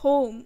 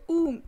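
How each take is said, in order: First: The vowel is an 'oh' sound. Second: The vowel is a long 'oo' sound. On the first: This is the modern pronunciation. "अब modern हम क्या pronounce करते हैं" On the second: This is the older pronunciation. "बड़ा ऊ का हमें sound निकालना है"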